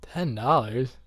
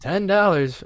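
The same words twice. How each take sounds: First: Put-on kid's disbelief. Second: Price tag voiced. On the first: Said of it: "and I'd be like". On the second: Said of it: "it'd be like".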